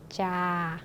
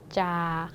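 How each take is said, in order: The two takes are said the same way.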